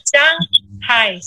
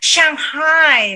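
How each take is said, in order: First: The word is said in a plain, neutral way. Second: The word is said in a showy, affected way.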